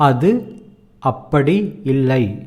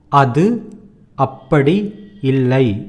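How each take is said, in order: First: Every sound is pronounced clearly and fully. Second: The same.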